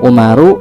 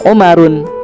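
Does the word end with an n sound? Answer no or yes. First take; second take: no; yes. First: The word ends without a final n sound. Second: The word ends with a final n sound. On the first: The speaker calls it right. "tapi Umaru" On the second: The speaker calls it wrong. "kita sebutnya bukan Umarun"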